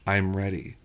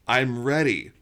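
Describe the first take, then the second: First: It is said quietly. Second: It is said loudly.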